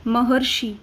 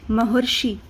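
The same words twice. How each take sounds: First: महर्षि with a clear र before शि; say it again. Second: महर्षि with a clear र before शि; say the word. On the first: Teacher repeats महर्षि for students to repeat. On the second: Teacher says महर्षि for students to repeat. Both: Shown as a demonstration. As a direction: stress the र in महर्षि, म-हर्-षि. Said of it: "अर बोल के देखिए".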